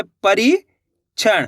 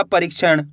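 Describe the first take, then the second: First: परीक्षण broken as परी, pause, क्षण; split in chunks. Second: Said in the usual way. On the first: Shown as a demonstration. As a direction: leave a clear gap inside परीक्षण after परी. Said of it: "दो-दो करके ही पढ़". (परीक्षण, परी के बाद रुककर) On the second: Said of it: "तो मिलके बन जाएगा".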